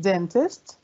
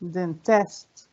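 First: "dentist" as DEN-tist, offered as an option; stress on first syllable. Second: "dentist" as den-TIST, questioning; stress on second syllable. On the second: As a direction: punch TIST in "dentist" with a rise. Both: Shown as a demonstration. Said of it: "أي مقطع فيهم أنا صوتي بيبقى قوي".

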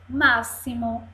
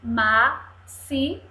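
First: Said in the usual way. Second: Slow "Máximo" split into má, xi, mo; syllable by syllable. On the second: Shown as a demonstration. Teacher models reading for children, "Máximo" in pieces. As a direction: separate each syllable of "Máximo". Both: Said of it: "Três sílabas".

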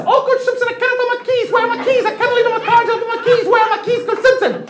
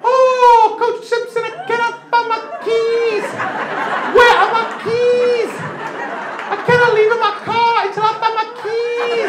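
First: Very high, frantic falsetto plea; Zambian mom impression. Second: Very high falsetto, drawn out; slowed-down impression. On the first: Mother bursting into the coach's office, high frantic falsetto. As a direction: squeak it out, panicked about the keys. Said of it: "what I heard in my brain". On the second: Comic slowing the mother's plea down for the crowd, high and slow. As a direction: stretch every word, high and pleading. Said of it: "I'll slow it down for you".

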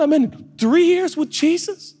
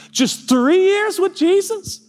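First: Slow, higher, three pressed; stress on three. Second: Fervent preaching. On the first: Pastor marvelling to the church, three stressed. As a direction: lean on "three" and draw it out. Preaching climax. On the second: Pastor stirring the congregation, rising fervour. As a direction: swell up on "Just three years with Jesus". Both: Real, not acted.

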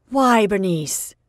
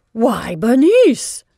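First: Slower, bewildered question with the name; aunt repeating her question, bewildered and still dismayed. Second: Loud, slow shocked cry of a name; aunt shocked to see her niece's bobbed hair, crying out loudly and slowly. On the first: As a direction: ask her why, more puzzled than shocked. Aunt asks again, more subdued. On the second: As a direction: gasp out her name in horror. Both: Acted.

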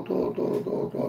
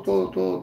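First: Whisper. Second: Said in the usual way. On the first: Real, not acted. Todo repeated, now whispered.

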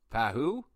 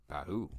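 First: Pahu? said with a rising, questioning tune; unsure question. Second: Said in the usual way. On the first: Shown as a demonstration. Unsure of the name, asking "Pahu?" with a rise. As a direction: test out "Pahu?" like you're not sure it's right. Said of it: "Pahu? rise".

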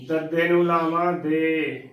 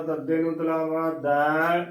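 First: ਦੇ spelt out with closed "e"; ਦੇ said as de, falling; vowel demonstration. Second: ਦੈ spelt out with open "ai"; ਦੈ said as dai, not de; vowel demonstration. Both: Shown as a demonstration. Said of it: "ਦੋਨਾਂ ਹੀ ਮਾਤਰਾਵਾਂ ਦਾ ਉਚਾਰਨ ਕਰਨ 'ਚ ਕਾਫੀ".

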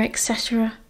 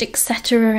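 First: Trailing off almost inaudibly; fading to nothing. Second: Tossed-off aside, dropping away; waving away the family pomp; dismissive. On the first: Sirius trails off mocking the family motto, fading. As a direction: let it die in a sigh. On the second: Sirius mocks his family's motto, dismissive. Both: A narrator's reading.

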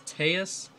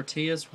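First: Teus said TAY-us; alternate pronunciation. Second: Teus said TEE-us; own pronunciation. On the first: Host offers one name for the card, Teus said TAY-us. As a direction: say Teus as "TAY-us", long A first. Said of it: "however you wanna call him". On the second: Host gives the name he calls it, Teus said TEE-us. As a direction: say Teus as "TEE-us", long E first. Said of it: "I call him Teus". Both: Shown as a demonstration.

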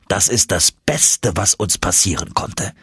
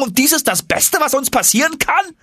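First: Said in the usual way. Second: Very high, aghast echo of the uncle's words; incredulous young Axel. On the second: Acted. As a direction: throw his own words back in disbelief.

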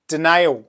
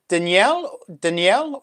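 First: "Danielle" without the y-glide, di-NAYL; name read as duh-NAYL. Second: "Danielle" with a y-glide, din-YELL; name read as dan-YELL. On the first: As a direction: say "Danielle" as di-NAYL, rhyming with nail. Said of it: "Danielle or". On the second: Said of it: "is it Dan-, Danielle, Danielle or Danielle". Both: Shown as a demonstration.

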